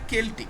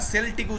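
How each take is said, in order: First: The word begins with a K sound. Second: The word begins with an S sound. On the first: The speaker calls it right. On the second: The speaker calls it wrong. "সেল্টিক উচ্চারণটা নয়"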